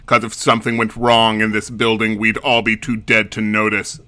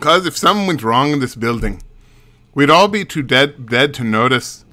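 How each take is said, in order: First: It is said in a plain, neutral accent. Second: It is said in a Mexican accent.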